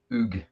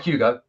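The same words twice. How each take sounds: First: Hugues as one syllable, "oog"; French pronunciation. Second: Hugo said with an O ending; wrong name form. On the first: Correcting listeners on the French player's name, "Hugues" as one-syllable "oog". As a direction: say "Hugues" the French way, silent H and hard G. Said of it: "He's French". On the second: Correcting listeners on the French player's name, "Hugo" with an added O. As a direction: say "Hugo" in two syllables, ending in O. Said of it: "Not Hugo". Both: Shown as a demonstration.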